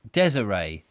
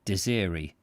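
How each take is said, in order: First: "Desiree" said as DEZ-uh-ray; corrected pronunciation. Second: "Desiree" said as dih-ZEER-ee; first pronunciation. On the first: Reader recalls Julia's correction of Desiree, said DEZ-uh-ray. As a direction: say "Desiree" stressed first, ending in ray. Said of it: "Was it Desiree?". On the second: Reader tries the name Desiree, said dih-ZEER-ee. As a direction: say "Desiree" with the stress on a long ZEER. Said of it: "Now, I said Desiree". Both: Shown as a demonstration.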